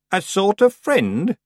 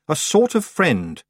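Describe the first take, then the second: First: Put-on "A sort of friend?" slow, rising, higher old woman's tease; teasing question. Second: "A sort of friend." slow and falling, settled; grudging admission. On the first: Old Miss Treason needles Tiffany, slow rising tease. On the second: Tiffany concedes to the old witch, slow falling admission. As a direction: give in flatly on "sort of friend". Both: A narrator's reading.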